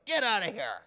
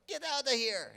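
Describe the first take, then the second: First: Loud, high mock yell; acted outraged vendor's shout; angry dismissal. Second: High, loud mock Chinese accent; outraged vendor, hammed-up Chinese accent; bad Chinese accent. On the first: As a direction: shout them out of the shop. Vendors throwing haggler out, acted. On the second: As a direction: yell it in a badly faked Chinese accent. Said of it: "that's my Chinese accent, by the way. I know it was horrible".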